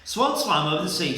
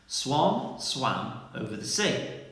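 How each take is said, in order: First: It is said quickly and hurriedly. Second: It is said slowly and carefully. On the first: The speaker calls it wrong. "Let's try a bit, bit quicker" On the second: The speaker calls it right. "I'll say it slowly for you again"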